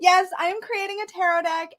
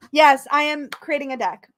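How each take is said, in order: First: Excited. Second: Said in the usual way. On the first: Real, not acted. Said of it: "beside myself". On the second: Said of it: "there's a lot".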